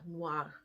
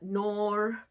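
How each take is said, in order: First: A W sound follows the N, nwar. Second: The vowel sounds like nor, with no W. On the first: The speaker calls it right. "O I in French is like a W sound. So the way you would pronounce it phonetically is N W A R" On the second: The speaker calls it wrong. "They say um, noir or uh, nor, something like that"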